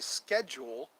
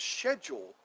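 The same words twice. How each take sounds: First: It is said the American way. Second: It is said the non-American way. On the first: "we say schedule in the U S" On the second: "but the way it's pronounced is schedule"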